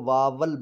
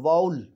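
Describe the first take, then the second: First: The second part is said with a 'v' sound. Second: The second part is said with an 'oo' sound. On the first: The speaker calls it wrong. "हम उर्दू की वजह से उसको कहते हैं" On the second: The speaker calls it right. "ऊ की आवाज़ में जाना है"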